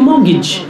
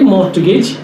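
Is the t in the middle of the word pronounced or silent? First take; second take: silent; pronounced. First: The t sound in the middle is silent. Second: The t sound in the middle is pronounced. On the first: The speaker calls it right. "It's a French word, it should be mortgage" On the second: The speaker calls it wrong. "most of us do say mortgage, T"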